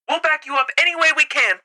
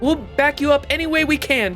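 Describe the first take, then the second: First: It is said in a put-on radio voice. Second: It is said in a plain, normal voice. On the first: The speaker calls it right. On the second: The speaker calls it wrong.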